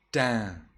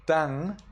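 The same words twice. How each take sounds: First: Tan with a short clipped nasal; Burmese reading. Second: Tang ending in a velar ng; Sri Lankan reading. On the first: Teacher giving the Burmese way, Tan clipped short. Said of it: "instead of Tang". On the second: Teacher showing the Sri Lankan way, Tang ending in ng. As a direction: close Tang on a back nasal. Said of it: "you read Tan". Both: Shown as a demonstration.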